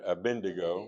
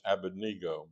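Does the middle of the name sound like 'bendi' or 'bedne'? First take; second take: bendi; bedne. First: The middle of the name sounds like 'bendi'. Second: The middle of the name sounds like 'bedne'. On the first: This is how people commonly say it. The speaker calls it wrong. "you probably heard it" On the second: This is how it should be said. The speaker calls it right. "it should be pronounced Abednego"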